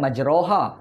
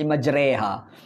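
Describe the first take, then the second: First: The vowel after r is an open 'a'. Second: The vowel after r leans toward 'e'. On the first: This is the basic reading as written. "Asalnya majroha" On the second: This is the reading with imalah. "bila dibaca dengan imalah dia baca"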